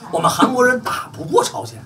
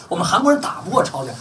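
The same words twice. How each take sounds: First: High and rising on 过, almost a question; blunt admission. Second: Said in the usual way. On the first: Retold or imitated. Retelling what the Koreans admitted, high and rising. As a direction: pitch it up like a blunt confession. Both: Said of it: "人就直话直说".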